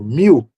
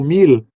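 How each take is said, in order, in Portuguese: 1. O som final é como a vogal U. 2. O som final é um L consonantal claro. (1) "com som de U" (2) "com som de L"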